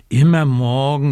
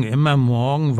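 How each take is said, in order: First: Loud whiny complaint, mildly acted; whining raven. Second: Whining raven. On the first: Little raven whining to Frau Dachs about his birthday, loud whine. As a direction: whine it like an impatient child. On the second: Acted. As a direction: let the whine sag. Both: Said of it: "quengelt Socke".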